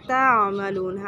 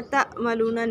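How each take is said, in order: First: تعملون slow and lower, with ain from the middle of the throat; correct تعملون. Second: تعملون with a weak ain, shown as a mistake; wrong تعملون. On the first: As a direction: recite تعملون with a deep throat ain, slowly. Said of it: "عین کو وسط حلق سے ادا کریں گے". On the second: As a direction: incorrect reading of تعملون. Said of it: "تعملون نہیں پڑھنا". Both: Shown as a demonstration.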